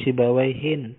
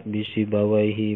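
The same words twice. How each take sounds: First: "Sibawaihin" ending in -hin; with tanwin. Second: "bisibawaihi" ending in open -hi, no n; without tanwin. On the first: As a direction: say "Sibawaihin" with a closing n sound. (baca "Sibawaihin" dengan bunyi n di akhir) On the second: (baca "bisibawaihi" tanpa bunyi n di akhir) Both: Shown as a demonstration. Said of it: "tanwinnya tanwin tangkir".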